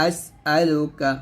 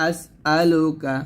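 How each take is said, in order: No difference in how they are said.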